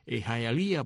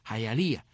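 First: The name is said with an English accent. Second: The name is said with a Cuban Spanish accent. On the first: "pronunciado en inglés, suena un poco distinto" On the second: "así a la cubana"

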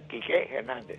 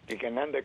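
First: Kike is stressed on its final E. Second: Kike is stressed on its first syllable. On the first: The speaker calls it wrong. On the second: The speaker calls it right.

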